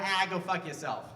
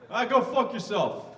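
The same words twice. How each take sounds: First: Slow Boston brush-off; same curse, drawn out in a Boston accent. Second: High, slow New Jersey brush-off; New Jersey accent. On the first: Comic testing Southerners on Yankee accents, Boston accent. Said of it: "Boston, you guys are great". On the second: Comic having the crowd guess accents, New Jersey accent. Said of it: "nobody saying New Jersey". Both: Shown as a demonstration.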